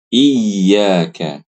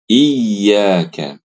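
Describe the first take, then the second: No difference in how they are said.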